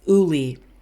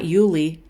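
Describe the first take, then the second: First: The name begins directly with a vowel sound. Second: The name begins with a 'y' glide sound. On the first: The speaker calls it right. "It's Uli" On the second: The speaker calls it wrong. "Not Yuli. Nope, because we're not saying it right"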